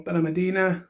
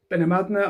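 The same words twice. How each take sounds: First: Benalmádena said as "bena-ma-DEE-na"; Benalmádena with an extra "ee" syllable after the d; alternative pronunciation. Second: Benamadna with no vowel between d and n; alternative pronunciation. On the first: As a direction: say Benalmádena with a long "dee" before the final na. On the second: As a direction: say Benamadna, running the d straight into the n. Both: Shown as a demonstration. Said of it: "however you wanna pronounce that".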